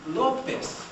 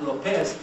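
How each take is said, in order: First: Lopez stressed on the first syllable, LO-pez, drawn out; correct stress demo. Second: Lopez stressed on the last syllable, lo-PEZ; mis-stress Lopez as lo-PEZ; wrong stress demo. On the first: Teacher correcting the name, slow LO-pez. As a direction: slowly punch the LO in Lopez. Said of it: "It's not Lopez, it's Lopez". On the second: Teacher showing what to avoid, lo-PEZ. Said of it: "It's not Lopez, it's". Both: Shown as a demonstration.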